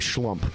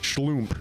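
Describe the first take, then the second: First: The name is said with an American pronunciation. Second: The name is said with a German pronunciation. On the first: "we say Schlump here in America" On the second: "I believe, is the right way to pronounce it"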